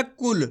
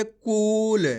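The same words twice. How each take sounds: First: कुल with a quick, short "u"; short vowel. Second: कूल with a long, stretched "oo"; drawn-out vowel. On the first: Teacher showing pupils the wrong reading, short-vowelled कुल. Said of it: "ऐसे नहीं पढ़ना". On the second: Teacher showing pupils the right reading, drawn-out कूल. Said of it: "खींच के कूल". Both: Shown as a demonstration.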